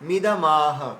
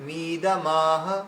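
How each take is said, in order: First: The vowel after the m is kept short. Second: The vowel after the m is drawn out long. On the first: The speaker calls it right. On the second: The speaker calls it wrong.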